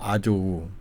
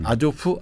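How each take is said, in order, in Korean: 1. 이 이름은 w 소리로 끝나요. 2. 이 이름은 f 소리로 끝나요. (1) "우크라이나 발음 우예요" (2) "프가 러시아로 발음으로"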